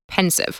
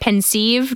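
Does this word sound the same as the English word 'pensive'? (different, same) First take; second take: same; different. First: It sounds exactly like the word pensive. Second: It sounds distinct from the word pensive. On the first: It treats the name like the ordinary adjective. "it probably could also be pronounced pensive" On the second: It keeps the name apart from the ordinary adjective. "I always say it pensieve just to, separate it from pensive"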